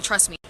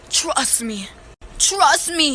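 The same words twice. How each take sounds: First: Low, soft throwaway quote; understated, low-pitched assurance; casual reassurance. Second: Drawn-out, sceptical echo; mocking repetition. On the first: Retold or imitated. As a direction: toss it off quietly as retold reassurance. Cousin's casual reassurance, retold. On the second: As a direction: parrot the promise back, stretching TRUST. Mockingly repeats cousin's assurance.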